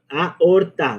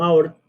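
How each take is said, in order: First: The first two vowels are in separate syllables. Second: The first two vowels merge into one syllable. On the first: The speaker calls it right. "siempre se forma un hiato" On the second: The speaker calls it wrong. "no, no aorta"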